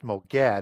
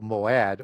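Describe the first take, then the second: First: A G sound is heard in the middle. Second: No G sound is heard in the middle. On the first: The speaker calls it wrong. "that G is silenced ... So it's not pronounced Mogad" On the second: The speaker calls it right. "it's Mo- Moad"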